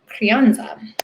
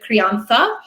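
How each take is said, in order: First: The z is said as a plain s sound. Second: The z is said as a lisped th sound. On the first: "words in the wine world that I am happy to Americanize" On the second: "I would be lisping and I would say the crianza"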